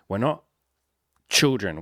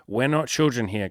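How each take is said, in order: First: Put-on "We're not", long pause, then "children" landed hard; pause before children. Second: Said in the usual way. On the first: Shown as a demonstration.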